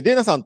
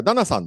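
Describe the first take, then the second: First: デイナ with the first syllable said as "dei", the American way; US-style name reading. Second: ダナ with a short flat "da", the stress on ナ; corrected name reading. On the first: Host first introducing the guest speaker, デイナ in the US reading. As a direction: say デイナ like the US reading of Dana, "DAY-na". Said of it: "ユーエスの発音で一般的にディーエーエヌエーっていうとデイナって呼ばれる". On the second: Host correcting himself on the guest speaker's name, ダナ with a plain "da". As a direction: fix it to ダナ, "DAH-na", the original reading. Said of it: "元の発音はダナだっていうのを昨日知りまして". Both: Shown as a demonstration.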